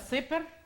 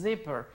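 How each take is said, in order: First: It begins with a hissing s sound. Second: It begins with a buzzing z sound. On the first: The speaker calls it wrong. "Aquí no es zipper" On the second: The speaker calls it right. "sino que es zipper"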